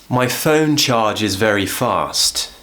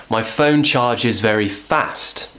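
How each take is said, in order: The two takes are said the same way.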